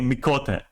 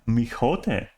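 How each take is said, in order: First: The middle consonant is a hard k sound. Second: The middle consonant is a soft h sound. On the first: The speaker calls it right. "thick Greek K" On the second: The speaker calls it wrong. "What kind of accent was that?"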